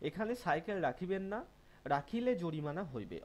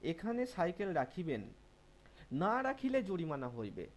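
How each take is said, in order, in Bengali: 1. বিরতিটা 'na' শব্দের ঠিক পরে আসে। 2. বিরতিটা 'na' শব্দের ঠিক আগে আসে। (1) "দ্বিতীয় দাড়ি যদি আমরা এখানে এই জায়গায় দিয়ে দিই" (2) "নায়ের পরে না বসিয়ে নায়ের আগে বসিয়ে দিই"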